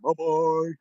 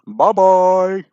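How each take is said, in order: First: It is said quietly. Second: It is said loudly.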